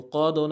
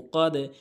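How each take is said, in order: First: The final vowel sounds like 'o'. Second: The final vowel sounds like 'e'. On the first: The speaker calls it wrong. "ও কদও না" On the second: The speaker calls it right. "নিচের দিকে সাউন্ড হবে ... কিন্তু ও কদে"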